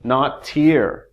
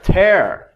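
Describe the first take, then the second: First: "Not tear" with "tear" said as /tɪɹ/ like a teardrop, falling tune; teacher contrasting "tear" said as /tɪɹ/; other sound. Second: "tear" said as /tɛɹ/ like prayer, louder and higher; teacher modelling "tear" as /tɛɹ/; rhymes with prayer. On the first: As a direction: say "tear" rhyming with ear. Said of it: "Not tear, right?". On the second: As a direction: stress "tear" as in ripping a dress, rhyming with prayer. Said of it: "That's this one". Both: Shown as a demonstration.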